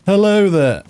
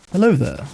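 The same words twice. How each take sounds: First: Friendly voice. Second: A lightly voiced friendly hello. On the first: Testing the mic on a stranger, high cheery hello. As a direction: sing the greeting out up high. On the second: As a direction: say it kindly, barely put on. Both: Shown as a demonstration. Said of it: "That's my friendly voice".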